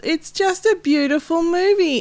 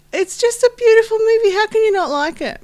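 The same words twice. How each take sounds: First: Said in the usual way. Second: High, loud gushing praise. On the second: Real, not acted. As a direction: rave about it, pitched way up. Repeats praise, much more gushing.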